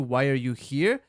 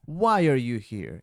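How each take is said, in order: First: The pitch rises toward the end. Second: The pitch starts high and falls. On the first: The speaker calls it wrong. "ao invés de" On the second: The speaker calls it right. "É sempre caindo, começa num tom mais alto e vai decrescendo"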